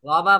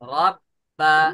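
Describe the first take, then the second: First: The b sound is short and not doubled. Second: The b sound is held, then released. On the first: The speaker calls it wrong. "রবা বলা যাবে না কিন্তু।" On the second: The speaker calls it right. "আগে ধরতে হবে, তারপরে ছাড়তে হবে।"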